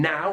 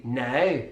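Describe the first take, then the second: First: Said in the usual way. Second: "now" with a closed Belfast ow; Belfast diphthong. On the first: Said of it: "and now would be now". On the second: Shown as a demonstration. Teacher showing the Belfast version, closed diphthong. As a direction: tighten the ow of "now", Northern Irish style. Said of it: "feature of the Belfast accent".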